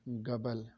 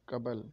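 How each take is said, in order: First: The word begins with a g sound. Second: The word begins with a k sound. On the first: "गाफ की आवाज़ निकालते हैं" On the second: "Urdu में काफ की आवाज़ निकाली जाती है"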